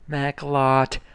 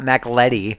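First: The middle vowel is an 'o' sound. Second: The middle vowel is an 'e' sound. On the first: The speaker calls it right. "Macklotti. Not Macletti" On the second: The speaker calls it wrong. "Not Macletti"

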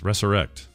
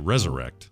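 First: The middle consonant is a hissing s sound. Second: The middle consonant is a buzzing z sound. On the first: The speaker calls it right. "It's probably more correct to have the S's" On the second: The speaker calls it wrong. "I've been saying it wrong when I say resurrect, because there's no Z's in there"

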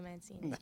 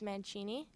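First: The name is said with an English pronunciation. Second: The name is said with an Italian pronunciation. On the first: This is how it is said in Canada. "In Canada, we say Mancini" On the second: This is how it is said in Italy. "In Italian, it's Mancini"

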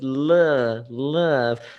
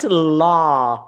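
First: The vowel is short and closed. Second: The vowel is open, like in 'law'. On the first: The speaker calls it right. "like he closed the sound" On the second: The speaker calls it wrong. "not law"

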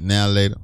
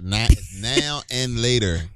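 First: The words are run together, dropping 'and'. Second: Each word, including 'and', is said separately.

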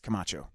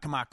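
First: The last consonant is a ch sound. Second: The last consonant is a hard k sound. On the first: The speaker calls it right. "It's Camacho" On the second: The speaker calls it wrong. "There's no K in there"

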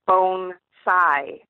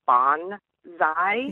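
First: The word is said as bonsai. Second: The word is said as banzai. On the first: It names the miniature tree art. The speaker calls it right. "the proper pronunciation of the word" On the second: It is the wartime battle cry. The speaker calls it wrong. "often mistakenly called bonsai, which is the suicide call of kamikaze pilots"

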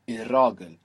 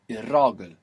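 First: The L turns into a doubled R. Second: The same.

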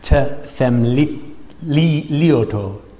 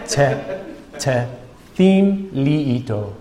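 First: The middle is run together, with no clear 'theme'. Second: The middle is clearly sounded out as 'theme'. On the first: The speaker calls it wrong. "I'm butchering that language" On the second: The speaker calls it right. "Listen properly"

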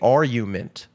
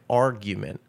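First: The G sound is dropped. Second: The G sound is clearly pronounced. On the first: The speaker calls it wrong. "I just say argument" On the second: The speaker calls it right. "you're supposed to pronounce the G, like argument"

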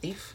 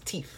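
First: The word is said in a standard accent. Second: The word is said in a Jamaican accent. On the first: This is the usual way to say it. "instead of thief" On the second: This is how the speaker's father says it. "my father is Jamaican, and he has a tendency to cut out the, he says thief"

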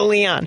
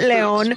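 First: The name is said with an English pronunciation. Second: The name is said with a Spanish pronunciation. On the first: "keep it at Leon" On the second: "If you can do it, Leon, great"

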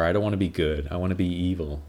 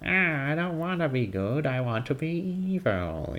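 First: It is said in his normal voice. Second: It is said in a Skeletor impression.

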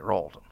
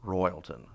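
First: The name is shortened to two syllables. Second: The name is said fully with three syllables. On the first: This is how locals say the name. "But we all say Ralton" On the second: This is the official name of the place. "It's called Royalton"

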